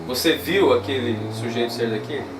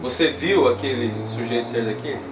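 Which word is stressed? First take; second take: viu; viu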